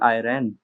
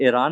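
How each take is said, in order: First: The word begins with an eye sound. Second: The word begins with a long ee sound. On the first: The speaker calls it right. "It's actually आयरन" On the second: The speaker calls it wrong. "ईरान actually बोलते गलत है"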